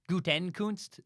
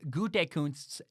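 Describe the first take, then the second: First: The name has an extra n sound mid-word. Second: The name has no extra n sound mid-word. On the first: The speaker calls it wrong. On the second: The speaker calls it right.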